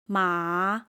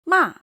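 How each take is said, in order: First: The pitch dips down and then rises. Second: The pitch drops quickly from high to low. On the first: It means horse. "dipping and rising" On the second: It means scold. "sharp and falling"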